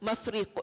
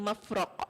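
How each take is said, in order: First: The vowel after the r is i. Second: The vowel after the r is a. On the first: "mengkasrahkan huruf ra" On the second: "boleh juga dengan memfathahkannya"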